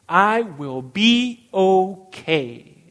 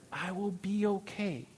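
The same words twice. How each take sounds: First: Slow, much louder, firm promise; loud declaration. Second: Much softer, gentle reassurance to himself; soft echo. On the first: Pastor assuring the congregation, slow and loud. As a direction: declare it out loud, slowly and with full conviction. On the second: Pastor quietly repeating the promise for the congregation, soft. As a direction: let it fall quietly, like settling into the promise. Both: Acted.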